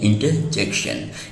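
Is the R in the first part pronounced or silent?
silent. The R sound after inter is silent.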